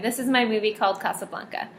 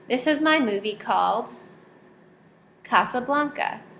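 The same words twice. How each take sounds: First: It is read straight through without a pause. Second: It is read with a pause after movie.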